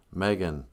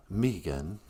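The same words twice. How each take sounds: First: "Megan" with an open first vowel; short-E Megan. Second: "Megan" with a long ee, questioning. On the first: Friend warning the prince, "Megan" said MEG-an. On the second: Friend corrected on the name, "Megan" said MEE-gan. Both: Retold or imitated. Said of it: "you mean, uh".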